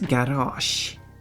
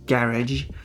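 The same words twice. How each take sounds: First: It is said with a Swedish pronunciation. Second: It is said with an English pronunciation. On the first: "but in Swedish it's garage" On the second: "which in English is garage"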